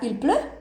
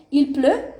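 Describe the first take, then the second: First: "il pleut" rising on "pleut"; questioning lift at the end of "il pleut"; question intonation. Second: Said in the usual way. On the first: Shown as a demonstration. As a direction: turn "il pleut" into a question with an upward tune. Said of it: "vai virar". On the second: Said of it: "uma entonação de pergunta".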